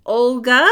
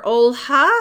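First: "Olga" said with a clear hard g before the final vowel. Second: "Olha" said with a breath h instead of g. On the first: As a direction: ask "Olga" with the g sounded firmly. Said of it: "I said, Did you say it's". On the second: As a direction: ask "Olha" with an audible h after the l. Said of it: "Did you say it's". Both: Retold or imitated.

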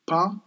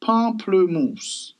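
First: "Pamplemousse" split into pahm, pluh, moos; syllable-by-syllable French. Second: "Pamplemousse" drawn out high, pahm-pluh-moos; fancy French. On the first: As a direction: break "Pamplemousse" up with long pauses. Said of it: "In French". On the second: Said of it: "You gotta be fancy with it". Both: Shown as a demonstration.

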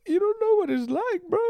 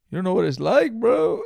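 First: Very high squeaky whine; squeaky mock whine. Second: High, loud whiny bro voice; hammed-up hurt complaint; mock whine. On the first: Teasing a friend again, squeaky falsetto whine. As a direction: push it way up into a squeak. Repeat, even higher. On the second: Teasing a friend over a tossed sweater, high mock whine.

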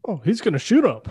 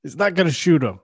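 First: Loud, stress on shoot; loud, land hard on "shoot" in "he's gonna shoot him"; mock bystander commentary. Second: Loud, stress on not; loud, punch "not" in "He's not gonna shoot him"; mock bystander commentary. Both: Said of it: "just listening and, like, commentating".

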